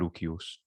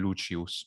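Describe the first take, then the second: First: The name is said in classical Latin style. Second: The name is said in church Latin style. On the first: "instead of" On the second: "ecclesiastical would be"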